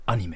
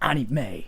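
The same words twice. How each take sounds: First: The vowels are clipped short, Japanese style. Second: The vowels are drawn out, foreign style. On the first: This is how Japanese speakers say it. The speaker calls it right. "You just cut the sound" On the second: The speaker sounds foreign. The speaker calls it wrong. "not anime"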